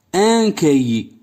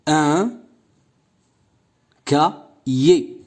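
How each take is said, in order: First: Said in the usual way. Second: "cahier" split into ca, then hier, with long gaps; syllable by syllable. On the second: Shown as a demonstration. Teacher sounding out a word for pupils, syllable by syllable. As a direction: break "Un cahier" into separate syllables with pauses. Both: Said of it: "J'écoute et je repère".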